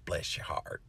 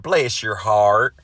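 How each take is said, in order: First: "Bless your heart" breathed out as a soft whisper. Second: Slow, louder Southern drawl on "Bless your heart"; Southern accent. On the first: Shown as a demonstration. Explaining the Southern saying to viewers, whispered. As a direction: drop to a hush for the Southern saying. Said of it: "a saying down here in the South". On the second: Retold or imitated. Reading a viewer's comment aloud, in a slow Southern accent. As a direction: lay on a syrupy Southern accent, stretching it out. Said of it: "said in a Southern accent".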